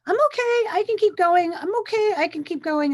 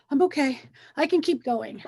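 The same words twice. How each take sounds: First: Higher and louder, forcing cheer; mock upbeat self-reassurance on repeat; hammed-up brave face. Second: Said in the usual way. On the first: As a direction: chant it like you're pushing through. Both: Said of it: "That's me".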